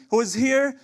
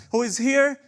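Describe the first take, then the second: No difference in how they are said.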